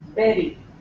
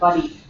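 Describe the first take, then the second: First: The vowel sounds like the one in merry. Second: The vowel sounds like the one in curry. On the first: The speaker calls it right. "The word is berry" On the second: The speaker calls it wrong. "not buddy"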